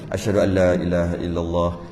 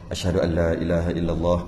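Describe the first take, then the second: No difference in how they are said.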